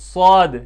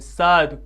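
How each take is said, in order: First: The letter name is pronounced heavy and thick. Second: The letter name is pronounced thin and light. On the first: The speaker calls it right. "पुर आवाज़ में, मोटी आवाज़ में" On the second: The speaker calls it wrong. "कुछ इसको साद पढ़ते हैं"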